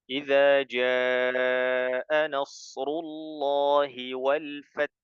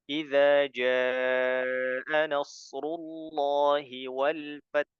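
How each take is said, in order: Both takes have the same delivery.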